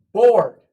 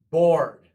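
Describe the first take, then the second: First: "Board." shouted out, sharp fall; loud model word. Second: "Board." repeated loudly, falling. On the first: Teacher drilling the word to the class, very loud. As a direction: call "Board." across the room. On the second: Teacher repeating the word for the class, loud. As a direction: echo "Board." firmly. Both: Shown as a demonstration. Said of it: "See how we're doing this?".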